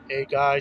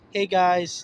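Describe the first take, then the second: First: It is said in a deep voice. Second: It is said in his normal voice.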